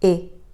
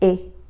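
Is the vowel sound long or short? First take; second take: short; short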